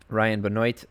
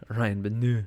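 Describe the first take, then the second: First: Benoit said as "buh-NOYT"; Benoit with spelled-out ending. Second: Benoit drawn out as guttural "buh-NEUH"; slow, hammy French "Benoit" with no T; mock French pronunciation. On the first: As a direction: say Benoit with a full "oyt" ending. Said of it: "This is O I T at the end". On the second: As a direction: drop the "oit" of Benoit for a long French vowel. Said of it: "French pronunciation of forget all those three letters". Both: Shown as a demonstration.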